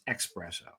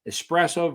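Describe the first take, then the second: First: It starts with a 'ks' sound, 'ex-'. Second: It starts with an 's' sound, 'ess-'. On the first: The speaker calls it wrong. "E X P" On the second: The speaker calls it right. "E E S P"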